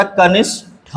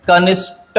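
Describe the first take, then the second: First: कनिष्ठ slowly, ending in puffed 'tha'; correct aspirated ending. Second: कनिष्ठ ending in plain 'ta', pitched higher; no puff of breath ending कनिष्ठ; wrong unaspirated ending. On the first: Teacher gives the correction, कनिष्ठ with aspirated tha. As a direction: separate an aspirated ठ at the end of कनिष्ठ. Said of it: "होता है". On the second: Teacher rejects a common error, कनिष्ठ with unaspirated ta. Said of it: "नहीं होता". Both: Shown as a demonstration.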